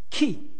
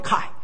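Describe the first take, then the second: First: The name is said with an 'ee' vowel. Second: The name is said with an 'eye' vowel. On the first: The speaker calls it wrong. "no I don't pronounce 키" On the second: The speaker calls it right. "call me Kai"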